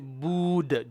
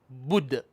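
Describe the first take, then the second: First: The vowel is stretched long. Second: The vowel is kept short. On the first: The speaker calls it wrong. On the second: The speaker calls it right.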